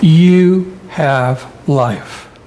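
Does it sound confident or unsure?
confident. It is said confidently, as a firm statement.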